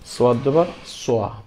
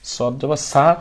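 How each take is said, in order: First: The final syllable is heavy, with rounded lips. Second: The final syllable is plain, with unrounded lips. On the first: The speaker calls it right. "আপনার মুখ গোল হয়ে যাবে" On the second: The speaker calls it wrong. "সদ জবর সা আমি বলবো না"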